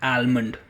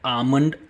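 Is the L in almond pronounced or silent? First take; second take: pronounced; silent. First: The L sound is clearly pronounced. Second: The L sound is silent. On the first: The speaker calls it wrong. "and not almond" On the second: The speaker calls it right. "it's called almond ... L is silent"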